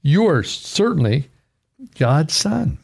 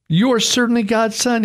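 First: Said in the usual way. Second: "You" pushed high with awe; emphatic. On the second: Shown as a demonstration. Preacher repeating the disciples' praise, higher and emphatic. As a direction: proclaim "You are certainly God's son" with the stress on "You".

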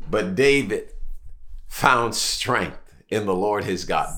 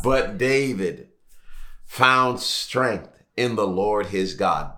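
First: Slow and soft, leaning on "found"; slow solemn repetition. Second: Even slower, each word of "found strength in the Lord his God" weighed; slower solemn repetition. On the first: Preacher repeating the key line to his church, slow and hushed. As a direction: let "found strength" sink in slowly. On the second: Preacher driving the verse home, slowly and softly. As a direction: drag it out like a refrain. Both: Real, not acted. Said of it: "here's what we're gonna focus on".

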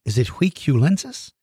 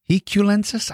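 First: "Huiculensis" begun with a w sound, as a question; tentative w-pronunciation. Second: "Huiculensis" begun with an h sound, higher; tentative h-pronunciation. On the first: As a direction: try "Huiculensis" as wee-kyu-LEN-sis, unsure. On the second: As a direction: try "Huiculensis" as hee-kyu-LEN-sis, questioning. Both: Real, not acted. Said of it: "I don't know how it's pronounced".

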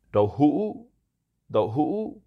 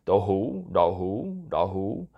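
First: "đậu hũ" with "hũ" broken and rising high; ngã tone on hũ. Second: Southern Vietnamese accent. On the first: Host giving the word for tofu, "hũ" high with a broken rise. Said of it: "hũ is with a ngã accent". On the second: Host excusing an attempt at southern pronunciation, southern-accented "đậu hũ". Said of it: "excuse my southern accent here". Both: Shown as a demonstration.

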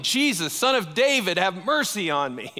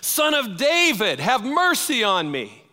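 First: Raised, higher calling out, not full force; a blind beggar calling out over the crowd; mild mock yell, pitched up; retold yelling. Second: Much higher and louder desperate cry; yelling even louder. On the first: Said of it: "this blind man starts yelling". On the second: Retold or imitated. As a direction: shout it out so the passing rabbi must hear. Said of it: "He starts yelling even louder".

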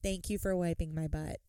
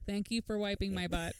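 First: Dull droning thank-you; monotone. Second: Flat, droning, no feeling at all; boring droning parody; monotone. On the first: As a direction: say it bored and flat. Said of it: "She said". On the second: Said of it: "In the most monotone voice". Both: Retold or imitated.

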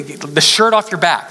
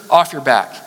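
First: Shirt stressed, said slowly with a falling tune; the shirt off your back, drawn out for emphasis. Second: Said in the usual way. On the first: Shown as a demonstration. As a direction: lean hard on shirt and take it slow. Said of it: "I mean, literally". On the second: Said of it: "you just give them the shirt".

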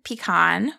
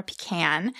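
First: "pecan" said pee-KAHN, open ah at the end. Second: "pecan" said pee-KAN, softer, as an aside. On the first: Narrator naming the magnificent tree, "pecan" as pee-KAHN. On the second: Narrator adding the alternative name, "pecan" as pee-KAN. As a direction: say "pecan" rhyming with can. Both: Shown as a demonstration. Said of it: "depending on how you like to pronounce it".

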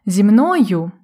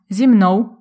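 First: Said in the usual way. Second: «мною» said «мнов», ending in w; western dialect form. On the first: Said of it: "говорять, наприклад, не". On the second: Shown as a demonstration. Teacher contrasts the dialect form with standard. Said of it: "а".

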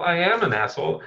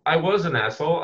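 First: Am leaned on; stress on am. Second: Was leaned on; stress on was. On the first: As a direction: hit the word am. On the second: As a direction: hit the word was. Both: Acted.

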